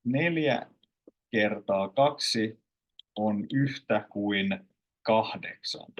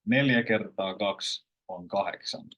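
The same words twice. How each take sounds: First: Slow, word by word, "kaksi" and "kahdeksan" in full; unnatural textbook style. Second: Everyday flow, "kahdeksan" without its d; natural colloquial style. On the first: Teacher shows what no one would say, slow textbook style. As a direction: spell out every sound, pausing between phrases, d kept in "kahdeksan". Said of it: "No one would say it like this". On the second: Teacher shows how she would say it, natural colloquial style. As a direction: run it together, "kaksi" shortened to "kaks". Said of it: "So I would say". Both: Shown as a demonstration.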